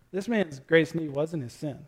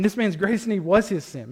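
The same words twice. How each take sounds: First: Said in the usual way. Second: "was" leaned on firmly, falling at the end; corrected reading, stress on was. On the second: Shown as a demonstration. Preacher correcting his misread line, stressing "was". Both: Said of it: "completely botched that reading".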